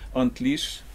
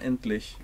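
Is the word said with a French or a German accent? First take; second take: French; German. First: It is said with a French accent. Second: It is said with a German accent. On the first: "si on enlève l'accent français" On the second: "en allemand correctement"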